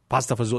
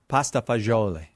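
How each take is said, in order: First: It is said in Newark Italian dialect form. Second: It is said in standard Italian form.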